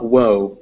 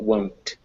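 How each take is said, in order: First: The word ends on the vowel, without N-T. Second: The word ends with a clear N-T sound. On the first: The speaker calls it wrong. "make sure it's not woe" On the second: The speaker calls it right. "you actually do pronounce that won't"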